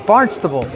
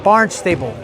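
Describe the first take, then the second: First: The name is said the way locals say it. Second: The name is said the way newcomers say it. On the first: The speaker calls it right. "And that is Barnstable" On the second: The speaker calls it wrong. "not Barnstable, which is the way I said it when I first heard of it"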